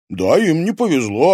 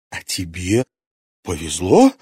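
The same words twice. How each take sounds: First: Said in the usual way. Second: Bitter, hateful question. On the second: Acted. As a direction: spit it out with hatred. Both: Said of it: "С ненавистью спросила Луиза".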